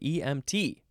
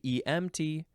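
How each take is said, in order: First: The stress is on the final T. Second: The stress is not on the final T. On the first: The speaker calls it right. "You have to emphasize the T" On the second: The speaker calls it wrong. "You can't say E M T"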